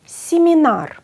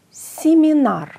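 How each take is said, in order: First: "Σιμινάρ" higher and louder, falling; emphatic pronunciation. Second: "Σιμινάρ" high and loud, falling; emphatic pronunciation. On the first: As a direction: stress the i in "Σιμινάρ". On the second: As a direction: repeat "Σιμινάρ" with clear i. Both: Shown as a demonstration. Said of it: "σαν να περιέχει φωνητικό ι".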